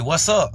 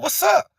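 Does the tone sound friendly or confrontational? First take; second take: friendly; confrontational. First: It is said in a friendly, casual greeting tone. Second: It is said in a hostile, challenging tone. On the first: A casual hello. "I can say" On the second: A challenge asking what the other intends. "Like, what you trying to do?"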